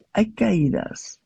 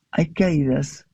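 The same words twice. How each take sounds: First: "hay" drawn out slowly and weighted; slow stress on hay. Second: "caídas" carries the weight, at normal pace; stress on caídas. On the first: Speaker to audience, slowly stressing "hay". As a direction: lean on "hay", let it hang. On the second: Speaker to audience, pressing "caídas". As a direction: hit "caídas" as the key word. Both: Shown as a demonstration.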